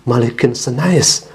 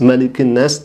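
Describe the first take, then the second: First: The last word is said as 'senais'. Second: The last word is said as short 'nas'. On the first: The speaker calls it wrong. "dia bukan melafalkan malikin nas, tetapi malikin senais" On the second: The speaker calls it right. "dilafal Qul a'udzu birabbin nas, malikin nas"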